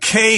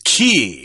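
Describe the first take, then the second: First: The word rhymes with day. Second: The word rhymes with see. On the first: "we're going to stick with that pronunciation because it is in the dictionary" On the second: "pronounced as key"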